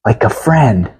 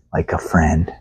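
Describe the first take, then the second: First: Said in the usual way. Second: Much lower and softer, hushed and tender. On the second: Acted. God speaking of Moses, low soft tender voice. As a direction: say it gently as God to a friend. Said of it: "You hear the tenderness".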